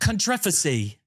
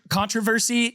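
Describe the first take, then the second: First: Said in an Australian accent. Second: Said in an American accent.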